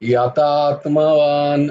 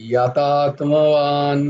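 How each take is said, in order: The two takes are said the same way.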